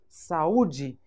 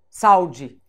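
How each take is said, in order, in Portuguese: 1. O a e o u são sílabas separadas. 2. O a e o u se juntam, soando como salde.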